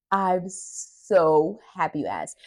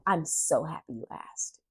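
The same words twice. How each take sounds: First: Slow and a bit louder, drawing each word out; slow, savoured. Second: Said in the usual way. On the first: Retold or imitated. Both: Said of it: "I was like".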